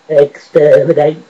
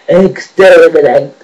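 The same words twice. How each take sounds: First: It is said in a lower Cyberman-like voice. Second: It is said in a higher Dalek-like voice.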